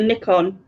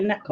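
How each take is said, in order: First: It uses the British pronunciation of the name. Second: It uses the American pronunciation of the name. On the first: "we say Nikon" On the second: "but you say Nikon"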